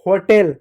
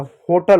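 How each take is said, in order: First: होटल ending in "tel", "ho-tel"; wrong pronunciation. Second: होटल ending in "tal", "ho-tuhl"; weak uh in the second syllable of होटल; correct pronunciation. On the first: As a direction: clear e in the second syllable of होटल. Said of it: "गलत होता है". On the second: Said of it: "होटल होता है". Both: Shown as a demonstration.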